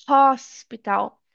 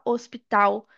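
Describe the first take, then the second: First: "hospital" slow, with a breathed H; English sounded H. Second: "hospital" the Portuguese way, starting on O; wrong, silent H. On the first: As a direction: stretch "hospital" out from an audible H. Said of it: "a gente fala". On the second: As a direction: leave the H off "hospital". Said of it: "a gente não fala hospital". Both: Shown as a demonstration.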